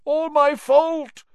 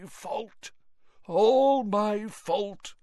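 First: High, pained, pressing on my; louder guilty rave; anguished old man, louder and falling. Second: High, far-gone, dragging the words; raving Mr Crouch, drawn out; delirious old man, slow and rising. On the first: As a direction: cry it out in guilt. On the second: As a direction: mumble it like a broken man. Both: Acted.

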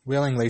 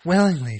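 First: Said in the usual way. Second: Willingly, higher and kind; warm. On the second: Acted. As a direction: offer willingly gladly. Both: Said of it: "she said".

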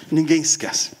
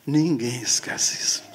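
First: Said in the usual way. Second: Hushed whisper. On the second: Acted. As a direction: breathe it almost silently. Repeated line, whispered.

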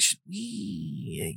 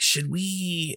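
First: "Should we?" fading much softer to nothing; trailing off. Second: Said in the usual way. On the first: Retold or imitated. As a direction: let "we" die away unfinished. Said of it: "And he just kinda trails off". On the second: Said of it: "And he's like".

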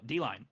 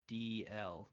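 First: "D-line" said as one word, "dee-line", corrected; self-correction. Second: "D L" read as two letters, D then L; reading an abbreviation. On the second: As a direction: spell out "D L" letter by letter, rising. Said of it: "you read that so beautifully". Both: Real, not acted.

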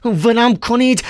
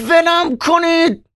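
First: Higher, pleading let me go; first ولم کنید, higher but held back; Ivan struggling. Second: Much higher, slow desperate scream; shrieking. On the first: («ولم کنید» اول، بالا ولی مهارشده) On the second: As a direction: scream ولم کنید, stretching each word. Held by nurses, screaming. («ولم کنید» با جیغ کشیده و بلند) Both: Acted.

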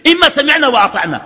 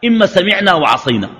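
First: High-pitched, emphatic first alternative; raised voice-pitch, laying down a choice; the obedient option. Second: Said in the usual way. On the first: Shown as a demonstration. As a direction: pitch it high, then let it fall. Sets out two opposed choices.

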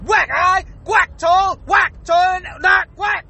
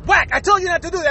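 First: Each word chopped apart by a whack; higher-pitched scolding broken up by smacks; stuttering word-by-word scolding. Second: Said in the usual way. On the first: Acted. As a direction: punctuate every single word with WHACK. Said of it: "I sound like I'm stuttering". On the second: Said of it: "instead of just going".

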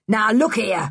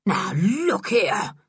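First: Short angry protest. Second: Slow, drawn-out protest; blustering catchphrase. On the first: Man seeing his supper walk away, angry. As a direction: object gruffly, with a touch of anger. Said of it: "began Mister Stick angrily". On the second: Man left with nothing else to say, slow bluster. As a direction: stretch out a helpless objection. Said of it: "nothing to say except his favourite". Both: A narrator's reading.

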